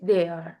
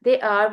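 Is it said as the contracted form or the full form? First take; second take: contracted; full. First: The words are merged into one short syllable. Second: Both words are said fully and separately. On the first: "contracted form" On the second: "full form"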